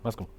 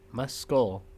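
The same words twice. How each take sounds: First: The word is said quickly, sounds run together. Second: The word is said slowly, each sound enunciated. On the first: "If you say it fast enough" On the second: "enunciate, pronounce the C"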